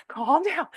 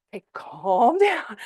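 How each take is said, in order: First: Calm down said through a laugh, pitched higher; amused, higher calm down. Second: Slow, soothing calm down, stretched out; drawn-out reassuring calm down. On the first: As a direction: chuckle it at the hyped niece. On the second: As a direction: settle down an overexcited niece, slowly. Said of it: "you've gotta be the calm one". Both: Retold or imitated.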